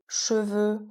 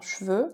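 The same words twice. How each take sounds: First: The e in the first syllable is pronounced. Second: The e in the first syllable is dropped.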